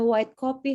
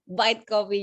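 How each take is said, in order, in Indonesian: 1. Ini diucapkan dengan logat standar yang biasa saja. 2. Ini diucapkan dengan tegas dengan logat Ngapak.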